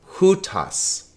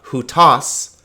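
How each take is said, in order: First: The stress is on the first syllable. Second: The stress is on the second syllable. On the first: The speaker calls it right. "The accent is on the first syllable" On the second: The speaker calls it wrong. "so it's not hutas"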